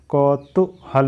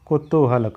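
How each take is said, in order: First: "कौतूहल" opening on a broad kau; wrong pronunciation demo. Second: "कुतूहल" opening on a short ku; short ku, then long too in "कुतूहल"; correct pronunciation demo. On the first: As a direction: say "कौतूहल" with kau as the first syllable. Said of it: "नहीं होता है". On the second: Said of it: "होता है". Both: Shown as a demonstration.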